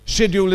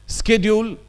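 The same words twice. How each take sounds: First: Schedule with sh, the British way. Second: Schedule said skedjul, hard sk at the start; Schedule with sk, the American way. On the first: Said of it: "schedule is British". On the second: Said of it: "is American". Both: Shown as a demonstration.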